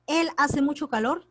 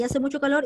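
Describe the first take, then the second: First: "Él" lifted and stressed, rising. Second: Said in the usual way. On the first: Shown as a demonstration. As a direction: lean on "Él" to add the subject. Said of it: "¿Dónde está el sujeto aquí?". (acento en "Él", subiendo) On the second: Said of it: "no sale ni tácito".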